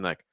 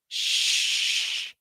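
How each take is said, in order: First: The shh sound is placed low, deep down. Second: The shh sound is placed forward near the lips. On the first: The speaker calls it right. "the first one, my placement was lower" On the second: The speaker calls it wrong. "That last one, my placement was up here, kind of towards my lips"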